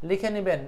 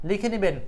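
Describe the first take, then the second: The two takes are said the same way.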